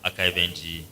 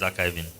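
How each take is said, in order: First: The ending is spelled out as letters N G. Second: The ending is said as one -ing syllable. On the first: The speaker calls it wrong. "everybody ended up calling it archive.ng" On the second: The speaker calls it right. "but it's archiving"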